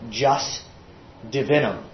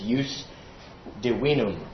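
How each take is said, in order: First: It is pronounced with English sounds. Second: It is pronounced with Latin sounds. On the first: "it's said when anglicized" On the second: "with Latin pronunciation"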